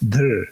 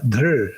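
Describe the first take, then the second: First: The root ends in a vowel-like r sound. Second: The root ends in a vowel-like r sound.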